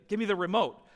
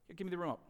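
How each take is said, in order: First: Firm acted demand from dad; insistent, no longer gentle; serious insistence. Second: Softly voiced, casual ask; mock-gentle dad, quietly asking; gentle request. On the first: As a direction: repeat the request as if you mean it. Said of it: "No, seriously". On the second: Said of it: "I just gently say".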